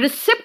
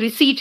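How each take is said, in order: First: The p sound is pronounced before the t. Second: The p sound is left out entirely. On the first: The speaker calls it wrong. "रिसिप्ट मत कहना" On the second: The speaker calls it right. "यहां पे पी भी silent है, वो रिसीट है"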